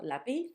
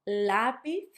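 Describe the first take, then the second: First: The stress is on the last syllable. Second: The stress is on the first syllable. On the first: The speaker calls it wrong. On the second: The speaker calls it right. "so you can notice that stress"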